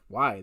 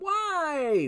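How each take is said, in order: First: It is said in a firm, non-whiny tone. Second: It is said in a whiny, complaining tone.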